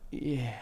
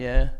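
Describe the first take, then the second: First: It is said in a suggestive, aroused way. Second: It is said in a plain, casual way. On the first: The speaker is turned on. "arousal would be like yeah" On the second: It is a simple agreement. "There was no arousal. It was just like yeah"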